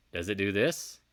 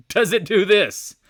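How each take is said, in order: First: Said in the usual way. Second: High, loud, drawn-out question; incredulous yell, word by word; emphatic shout. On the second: Shown as a demonstration. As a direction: belt out every word slowly. Repeats question, laughing then shouting.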